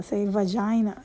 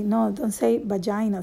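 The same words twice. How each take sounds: First: "vagina" said with a clear V, "vazhina"; V sound at the start of "vagina". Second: "vagina" said as "bagina"; B sound at the start of "vagina". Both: Retold or imitated. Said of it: "the teacher was trying to correct me".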